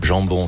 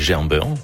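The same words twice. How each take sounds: First: It is said with a standard French accent. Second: It is said with a Saint-Étienne accent.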